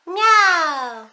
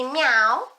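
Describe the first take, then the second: First: High meowing cat. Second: Said in the usual way. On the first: Shown as a demonstration. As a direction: meow like a kitty.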